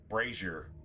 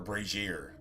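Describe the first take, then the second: First: The e vowel is said long. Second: The e vowel is said short. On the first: "like long e's" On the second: "or a short e"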